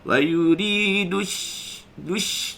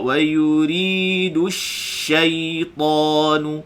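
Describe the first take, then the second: First: The sh sound is weak and not spread. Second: The sh sound is full with spread airflow. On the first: The speaker calls it wrong. "Jadi dia tak tak lawas" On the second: The speaker calls it right. "Jadi dia bunyi asy-syaitanu"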